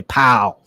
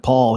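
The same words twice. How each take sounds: First: Pal with a short flat a, not Paul; dad's pronunciation. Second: Said in the usual way. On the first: Retold or imitated. Son showing how dad said his name, Pal. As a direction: say Pal, clipped like dad did. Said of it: "instead of Paul, he would say". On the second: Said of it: "instead of Paul".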